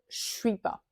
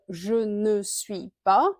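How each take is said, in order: First: The word ne is dropped entirely. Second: The word ne is clearly pronounced. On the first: "on va dire je suis pas" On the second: "au lieu de dire je ne suis pas, parce que c'est long"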